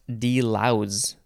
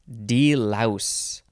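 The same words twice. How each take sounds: First: The word ends with a z sound. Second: The word ends with an s sound.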